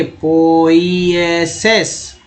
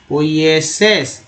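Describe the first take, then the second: First: पोइएसेस very slowly, as पो-ई-ए-सेस; syllable-by-syllable pronunciation. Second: Said in the usual way. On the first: Shown as a demonstration. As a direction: stretch every vowel of पोइएसेस. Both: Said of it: "उच्चारण".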